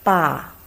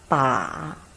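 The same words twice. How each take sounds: First: It is said with the fourth tone. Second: It is said with the third tone. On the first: "Fourth tongue" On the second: "Third tongue"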